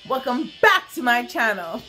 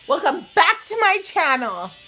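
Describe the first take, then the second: First: It is said in a more restrained, toned-down way. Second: It is said in an over-the-top, exaggerated way.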